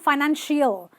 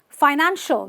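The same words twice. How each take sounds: First: The ending sounds like 'ill'. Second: The ending sounds like a short 'ul'. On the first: The speaker calls it wrong. "not financial" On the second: The speaker calls it right. "They're just ul"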